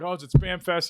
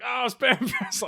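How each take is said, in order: First: Said in the usual way. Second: Cop's amused echo. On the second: Retold or imitated. Cop echoes his line back.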